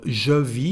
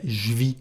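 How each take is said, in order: First: Said in the usual way. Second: "je vis" fused into one syllable "zhvee"; spoken French "je vis", said "j'vis"; contraction. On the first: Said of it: "Instead of je vis". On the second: Shown as a demonstration. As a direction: drop the vowel of "je" in "je vis". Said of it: "A second contraction here".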